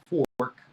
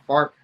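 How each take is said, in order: First: The vowel sounds like the 'or' in 'for'. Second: The vowel sounds like the 'ar' in 'far'. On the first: The speaker calls it right. "It's called a fork, F O R K. Say it correctly" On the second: The speaker calls it wrong. "why do you pronounce it like that?"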